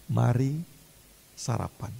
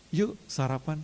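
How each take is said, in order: First: Gentle invitation. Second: Soft, breezy "Yuk sarapan" with a lift on yuk; casual invite. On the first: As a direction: hush it like a kind host. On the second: Jesus inviting Peter to breakfast, casual and soft. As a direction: say it like a friend, no judgement. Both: Retold or imitated. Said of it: "Ngomongnya gitu".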